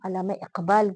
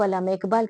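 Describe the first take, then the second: First: The name is pronounced in careful, standard Lucknowi style. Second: The name is pronounced in a careless, non-standard way. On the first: The speaker's Urdu is good. The speaker calls it right. "हमारे उर्दू के लिए अच्छी आवाज और अच्छी पहचान" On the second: The speaker's Urdu is not proper. The speaker calls it wrong. "ये ठीक नहीं बोला इसने"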